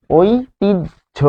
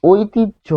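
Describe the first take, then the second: First: ঐতিহ্য very slowly, "oi... tij... jho"; syllable-by-syllable pronunciation. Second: ঐতিহ্য higher, as "oitij-jho" in one go; resulting pronunciation. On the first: Teacher repeats the result for learners, syllable-by-syllable pronunciation. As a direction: split ঐতিহ্য into three high, separated syllables. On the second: Teacher shows what the rules produce, resulting pronunciation. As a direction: say ঐতিহ্য joined, ending in jho. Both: Shown as a demonstration. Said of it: "ফলে আমরা পাচ্ছি".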